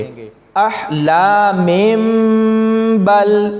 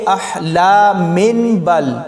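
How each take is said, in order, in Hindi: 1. b से पहले m की आवाज़ आती है। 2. b से पहले n की आवाज़ आती है। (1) "अब इसको हम ऐसे पढ़ेंगे" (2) "मिन बल अब बिल्कुल नहीं पढ़ना"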